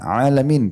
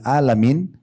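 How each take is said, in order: First: It starts with a tight throat consonant. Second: It starts with a plain glottal stop. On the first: It means the worlds. The speaker calls it right. "alamin pakai ain" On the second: It means the sick people. The speaker calls it wrong. "Kalau ibu ganti Hamzah"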